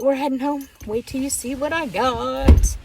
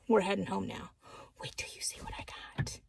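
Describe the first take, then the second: First: It is said in a normal voice. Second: It is whispered.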